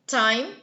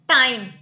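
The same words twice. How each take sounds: First: The t is light, short and crisp. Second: The t is heavy with a vibrating quality. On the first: The speaker calls it right. "It'll be time, time, time. So it's like a girl in stilettos" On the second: The speaker calls it wrong. "So we don't say time"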